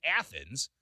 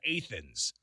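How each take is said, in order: First: Athens said "ATH-ens"; standard pronunciation. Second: Athens said "AY-thens"; local pronunciation. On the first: Host contrasting the Greek city name, standard pronunciation. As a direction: Athens with short a as in "math". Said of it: "It's not like Athens". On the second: Host giving the Illinois town name, local pronunciation. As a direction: Athens with a long A. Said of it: "just as simple as". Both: Shown as a demonstration.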